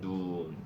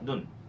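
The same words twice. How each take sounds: First: The vowel is said long. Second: The vowel is said short. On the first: It means snow. "이렇게 발음하거든" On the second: It means the eye. "요게 신체는 다 짧아"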